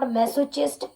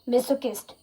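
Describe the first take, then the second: First: The ending is said with a 'ch' sound. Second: The ending is said with a 'k' sound. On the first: The speaker calls it wrong. "It's not masochist" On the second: The speaker calls it right. "it's kist. Masochist is the right pronunciation"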